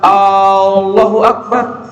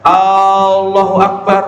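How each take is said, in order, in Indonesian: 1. Bunyi A di awal dipanjangkan. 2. Bunyi A di awal dipanjangkan.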